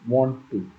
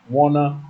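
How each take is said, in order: First: It is said as two full words. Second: It is said as one reduced word. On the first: The speaker is talking formally. The speaker calls it right. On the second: The speaker is talking casually among friends. The speaker calls it wrong. "Instead of ... wanna"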